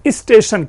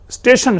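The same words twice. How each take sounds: First: An extra 'i' vowel is added before the s. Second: The word starts directly with the s sound. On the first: The speaker calls it wrong. "ये ई जो आता है" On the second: The speaker calls it right. "जो स्टेशन शब्द है"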